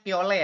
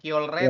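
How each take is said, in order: First: The middle has a plain l sound, no r. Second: The middle has an r sound after the l. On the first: The speaker calls it right. "dibacanya kiole ya" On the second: The speaker calls it wrong. "bukan kiolre"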